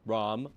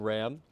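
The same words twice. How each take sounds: First: "Rom" with an open o as in rock; correcting to "Rom", o sound; Rom, the technical way. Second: "Ram" with the a of cat; casual "Ram", short flat a; Ram pronounced plain. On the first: Being specific about his name: "Rom" with an o. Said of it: "specific about pronunciations here". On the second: Introducing himself to his friend: "Ram" with flat a. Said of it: "Rom, technically". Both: Shown as a demonstration.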